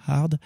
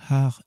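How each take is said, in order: First: "hard" said with its final d clearly sounded. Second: "hard" said without its final d, as "har"; final D dropped. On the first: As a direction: close the word "hard" on an audible d. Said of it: "qu'il n'y avait pas ce côté dur". (« hard » prononcé avec le d final) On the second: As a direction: leave the d off the end of "hard". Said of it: "si ça s'appelait hard et pas hard". (« hard » prononcé sans le d final, « har ») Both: Shown as a demonstration.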